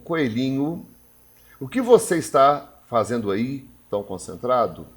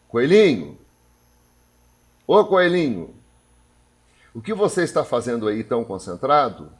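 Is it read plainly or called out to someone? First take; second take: read plainly; called out. First: It is read plainly, without calling anyone. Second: It is called out, addressing the rabbit.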